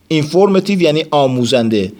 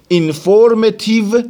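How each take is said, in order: First: Said in the usual way. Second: "اینفورمتیو" said slowly and pitched high, each syllable drawn out; careful teacher demo of "اینفورمتیو"; model pronunciation. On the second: Shown as a demonstration.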